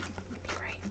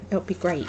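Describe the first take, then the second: First: Whispered to herself, unvoiced. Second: Said in the usual way. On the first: Real, not acted. Crafter whispering to herself that her friend will love it. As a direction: whisper it like convincing yourself.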